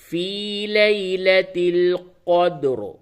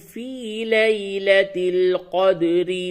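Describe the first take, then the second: First: The final r is heavy, and the phrase stops. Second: The final r is light and runs on. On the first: The reciter pauses at the end of the verse. "रा को हालत वक्फ में पुड़ करके यानी मोटी करके पढ़ेंगे। तो यूं पढ़ेंगे" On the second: The verse is joined to the next verse. "तो अब बारीक इस तरह से पढ़ेंगे"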